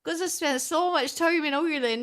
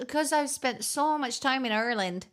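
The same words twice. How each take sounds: First: Higher, hammed-up Irish take on Ireland; exaggerated Irish accent. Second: First try at Ireland in mock Irish; lightly faked Irish accent on Ireland; put-on Irish accent. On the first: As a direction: lay the mock Irish on thick, pitch lifted. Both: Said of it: "I actually just have a really natural Irish accent".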